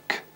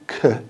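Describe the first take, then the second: First: The sound is only a puff of air. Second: The sound is voiced, with a vowel-like hum. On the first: The speaker calls it right. "It's just air, it's just k" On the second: The speaker calls it wrong. "it's not k. It hasn't got voice box added to it"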